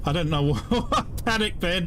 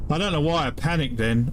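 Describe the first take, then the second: First: Laughing at himself. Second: Said in the usual way. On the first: Real, not acted. Player laughing at his own panicked rescue, amused laugh mid-line. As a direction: laugh breaking through mid-sentence, pitched up.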